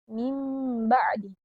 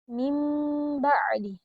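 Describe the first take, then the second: The two takes are said the same way.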